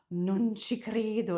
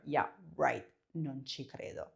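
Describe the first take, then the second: First: Nice, impressed. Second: "non ci credo" dropped low and quiet, a sneering doubt; mean, sarcastic. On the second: Student's claim, sarcastic, mean disbelief. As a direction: scoff "non ci credo" like you think it's a lie. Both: Shown as a demonstration. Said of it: "make it sound nicer or meaner".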